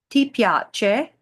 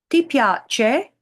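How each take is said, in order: The two takes are said the same way.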